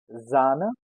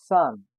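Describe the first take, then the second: First: Zahne said "ZAH-neh"; German pronunciation. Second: Zahn said "tsahn", louder; German pronunciation. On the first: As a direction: buzz the first sound of Zahne. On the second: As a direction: hiss the first sound of Zahn. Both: Shown as a demonstration. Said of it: "You have to notice the difference".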